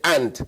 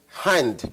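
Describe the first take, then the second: First: The word starts directly with a vowel. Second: The word starts with a clear h sound. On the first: The speaker calls it wrong. "but will say and" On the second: The speaker calls it right. "a teacher who will not say hand"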